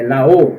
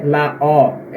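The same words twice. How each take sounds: First: "O" said closed, like "oh"; the correct take: rounded, closed "oh" for "O". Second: "O" said open, like "aw"; the wrong take: open-mouthed "aw" for "O". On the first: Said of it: "sempre fechado". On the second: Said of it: "Então não é la O". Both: Shown as a demonstration.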